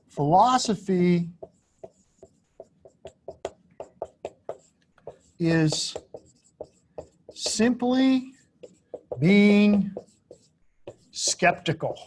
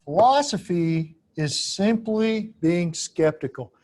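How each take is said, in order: First: Each word set apart by long pauses, simply and being pitched higher; slow word by word. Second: Said again in one slower connected line, falling at the end; whole phrase restated. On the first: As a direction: lay it down one word at a time, letting it sink in. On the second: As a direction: restate the claim as one smooth sentence. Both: Shown as a demonstration. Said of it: "Emphasis on skeptical".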